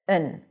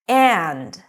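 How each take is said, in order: First: It is reduced to a short n sound. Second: It is said in full with the d. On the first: The word is unstressed and just connects words. "we just say n. So we turn the a into a schwa, uh, and the d we just eliminate" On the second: Both things together are meant, not one or the other. "When this word is emphasized, then the D comes back with all its presence"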